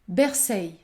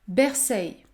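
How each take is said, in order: First: The word ends with an 'eil' sound. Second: The same.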